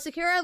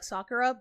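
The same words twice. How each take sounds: First: The name is said with fewer syllables. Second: The name is said with extra syllables. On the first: The speaker calls it right. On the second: The speaker calls it wrong.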